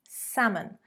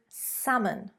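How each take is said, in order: No difference in how they are said.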